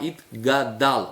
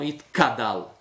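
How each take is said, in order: First: The middle consonant is a g sound. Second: The middle consonant is a k sound. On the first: The speaker calls it right. "é o gimel, pronunciar Idgadal" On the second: The speaker calls it wrong. "não Idkadal. Senão a pessoa troca o gimel pelo kuf"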